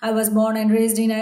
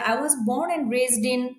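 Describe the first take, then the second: First: It is read flatly and mechanically. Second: It is said smoothly and expressively. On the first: The speaker calls it wrong. "এভাবে না" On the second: The speaker calls it right. "Nicely বলবেন"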